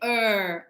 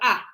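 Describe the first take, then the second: First: The ending is said as an r-coloured 'er'. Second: The ending is said as an open 'ah'. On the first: The speaker calls it wrong. "So in Australia, we don't say er" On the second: The speaker calls it right. "I go ah, ah. We like to open the mouth"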